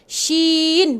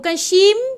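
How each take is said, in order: First: The word ends with the lips open. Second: The word ends with the lips closed. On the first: The speaker calls it right. "nun juga shin" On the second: The speaker calls it wrong. "bukan tutup mulut"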